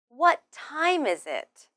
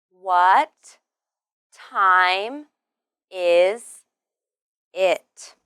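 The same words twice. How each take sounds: First: Said in the usual way. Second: Slow, each word separated by a pause; louder, isolated words for learners. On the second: Shown as a demonstration. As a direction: say it one word at a time. Word-by-word pronunciation demo for learners.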